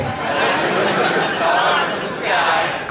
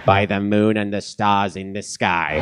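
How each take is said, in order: First: High, slow echo of the oath; crowd echo. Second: Slow solemn oath, leading the room; solemn pledge line. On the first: Crowd echoing the evil pledge, slow and much higher. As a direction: repeat it slowly like a giggling cult crowd. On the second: Leading the panel in the evil pledge, slow and solemn. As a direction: intone it slowly like an oath. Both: Shown as a demonstration. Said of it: "recite the Pledge of Evil Allegiance".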